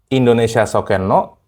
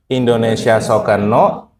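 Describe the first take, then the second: No difference in how they are said.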